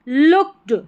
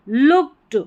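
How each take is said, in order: Both takes have the same delivery.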